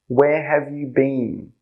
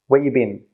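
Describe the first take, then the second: First: Every word is said fully and clearly. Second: It is fast, with 'have' dropped and 'you' reduced.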